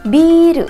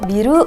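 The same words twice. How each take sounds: First: The first vowel is drawn out long. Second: The first vowel is short. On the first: The speaker calls it right. "Dia tuh memanjangkan huruf B-nya" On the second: The speaker calls it wrong. "bukan biru"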